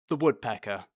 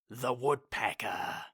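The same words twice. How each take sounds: First: It is said without a dramatic pause. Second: A dramatic pause comes before 'Woodpecker'.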